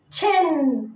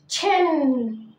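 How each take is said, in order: First: Said in the usual way. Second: تشين stretched out very slowly for learners; تشين said slowly and clearly for students; slow repeat-after-me. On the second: Shown as a demonstration. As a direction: draw out تشين slowly so they can copy it. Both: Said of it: "قول ورايا".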